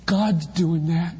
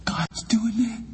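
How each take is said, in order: First: God's stressed, slow and deliberate; slow emphatic. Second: Hushed high whisper. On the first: Preacher restating the point, slow and weighty. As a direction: lean on God's, say it slowly. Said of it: "repeats line, slow and firm". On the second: Preacher to congregation, first take whispered. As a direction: breathe it out as a secret. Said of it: "repeats line, first hushed". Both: Shown as a demonstration.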